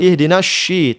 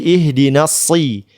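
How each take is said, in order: First: The consonant is a soft sh sound. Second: The consonant is a heavy s sound. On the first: The speaker calls it wrong. "Jangan ihdinas sy" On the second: The speaker calls it right. "tapi ihdinas si"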